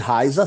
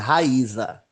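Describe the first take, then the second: First: The a and i blend into one syllable. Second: The a and i are separate syllables. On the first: The speaker calls it wrong. "o narrador insiste em chamar de Raiza" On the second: The speaker calls it right. "o nome dela é Raíza"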